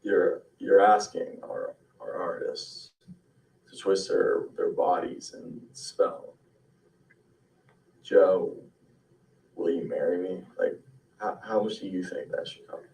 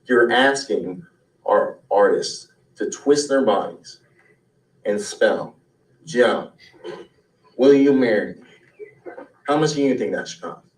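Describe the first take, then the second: First: Exhausted, halting and softer; no sleep last night. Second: A little nasal, playful showman; slightly nasal. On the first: Sleepless performer pitching a routine to the director, exhausted. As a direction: drift through it, barely awake. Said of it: "as if you got no sleep last night". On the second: Performer pitching a routine at an audition, slightly nasal. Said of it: "add a little nasal to it". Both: Acted.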